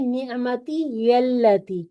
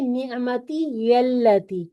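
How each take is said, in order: First: A 'ya' sound links the two words. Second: A 'ya' sound links the two words.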